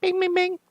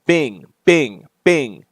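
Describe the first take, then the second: First: High-pitched rapid bings; high imitated chime. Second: Falling spoken bings; imitated alert chime. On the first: Player voicing the game's Bat computer alert, high chime. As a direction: squeak out a little alert beep. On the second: Player voicing the game's Bat computer alert, imitated chime. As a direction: mimic a notification going off.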